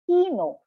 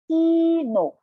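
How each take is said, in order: First: It is said at normal speed, smoothly joined. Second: It is said slowly, syllable by syllable.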